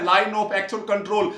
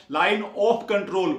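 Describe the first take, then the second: First: Line of actual control said very slowly, word by word; slow spelled-out term. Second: Line of control said very slowly, of stressed; slow spelled-out term. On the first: Teacher repeats the term slowly for the class. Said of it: "बार बार बोल रहा हूं मैं". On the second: Teacher contrasts LOC with LAC, very slow. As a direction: stretch line of control word by word. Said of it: "ओ से क्या है". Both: Shown as a demonstration.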